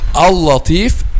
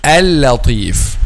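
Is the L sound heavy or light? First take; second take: heavy; light. First: The L sound is heavy and thick. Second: The L sound is light and thin. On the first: The speaker calls it wrong. "don't say al-latif" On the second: The speaker calls it right. "Al-latif is a light lamb"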